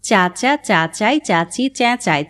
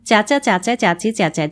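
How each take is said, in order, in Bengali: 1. এটি ধীরে বলা হচ্ছে। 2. এটি একটু দ্রুত বলা হচ্ছে। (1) "প্রথমে ধীরে" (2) "তারপর একটু দ্রুত"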